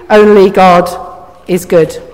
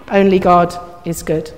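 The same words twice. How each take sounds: First: "Only God" firm, then "is good" lower after a pause; measured emphasis. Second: Low, soft "Only God is good"; hushed repeat. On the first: Preacher quoting Jesus's answer to the young man, measured emphasis. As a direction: set "Only God" out firmly, let "good" drop. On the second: Preacher repeating Jesus's answer to the congregation, hushed. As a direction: let it sink in quietly, pitched low. Softer repeat of the quoted line. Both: Acted.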